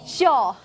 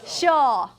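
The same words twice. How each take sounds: Both takes have the same delivery.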